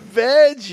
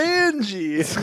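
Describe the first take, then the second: First: The name has no n before the j sound. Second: The name has an n before the j sound. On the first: The speaker calls it wrong. "not veggie" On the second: The speaker calls it right. "it's Vanjie"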